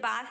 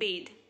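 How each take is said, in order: First: It is said with a short 'bath' sound. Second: It is said with a long 'bathe' sound. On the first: The speaker calls it wrong. "इसे बाथ नहीं बोलेंगे" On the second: The speaker calls it right. "इसे बोलेंगे bathe"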